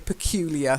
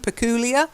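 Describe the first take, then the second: First: The middle syllable sounds like 'you'. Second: The middle syllable sounds like 'oo', American style.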